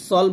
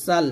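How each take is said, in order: First: সল with a heavy S and rounded vowel; wrongly thickened S. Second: সাল with a thin, light S. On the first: Teacher showing pupils the mistake, S made heavy. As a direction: thicken সল as if the S were Sad. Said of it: "তো সল বলা যাবে না". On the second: Teacher giving pupils the correct word, thin S. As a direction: keep the vowel open in সাল, S not thickened. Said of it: "সাল বলতে হবে এটা". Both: Shown as a demonstration.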